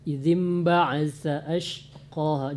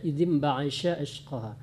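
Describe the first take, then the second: First: The consonant is a lisped th sound. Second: The consonant is a sh sound. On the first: The speaker calls it right. "sa di ujung lidah" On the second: The speaker calls it wrong. "jangan dibaca sya"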